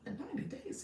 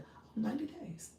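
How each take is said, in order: First: It sounds shocked and questioning. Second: It sounds calm and accepting.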